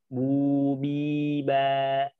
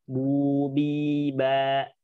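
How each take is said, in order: Both takes have the same delivery.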